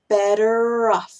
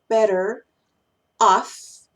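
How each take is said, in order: First: The R carries over, linking into the second word. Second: The words are said separately, not linked.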